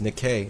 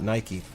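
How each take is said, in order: First: The name is said in a non-American way. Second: The name is said the American way. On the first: This is the original name of the goddess. The speaker calls it right. "It's actually pronounced Nikkei" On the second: This is how Americans say the name. The speaker calls it wrong. "Nike's just the, how Americans say it"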